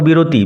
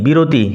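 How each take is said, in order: No difference in how they are said.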